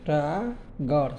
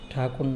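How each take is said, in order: First: The name is said with English sounds, Tagore. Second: The name is said with Bengali sounds, Thakur. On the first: The speaker calls it right. "কিন্তু এটা উচ্চারণ হবে টাগর" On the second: The speaker calls it wrong. "ঠাকুর না"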